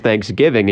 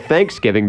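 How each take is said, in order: First: The stress is on the second part, giving. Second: The stress is on the first part, thanks. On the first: This is how it is said up north. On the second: This is how it is said in the South.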